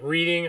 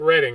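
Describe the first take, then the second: First: The first syllable sounds like 'reed'. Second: The first syllable sounds like 'red'. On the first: The speaker calls it wrong. "R E E D I N G" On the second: The speaker calls it right. "R E D D I N G"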